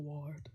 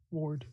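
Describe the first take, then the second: First: Ward said like wod, no r, flat a; misread ward. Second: Ward. said with rounded aw and a clear r, wored; Ward. fixed to sound like word with aw; corrected ward. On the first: First stumbling try at ward. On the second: Narrator corrects himself, saying Ward. properly. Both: Shown as a demonstration.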